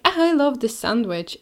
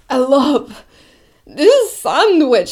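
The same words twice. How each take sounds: First: Said in the usual way. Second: Sung, breathy, drawn-out mock belting; sung, oversing it like a pop diva; sung, nasal belting. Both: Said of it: "She could be singing".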